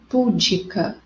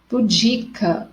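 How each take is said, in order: First: The stress falls on the syllable pu. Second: The stress falls on the syllable di. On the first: The speaker calls it wrong. "e não púdica" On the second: The speaker calls it right. "em pudica é no di"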